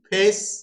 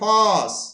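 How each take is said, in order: First: The vowel is an ay sound. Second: The vowel is an open ah sound. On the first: This is the modern pronunciation. "এখন নেম, ফেস" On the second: This is the older pronunciation. "ফেসটাকে ফস"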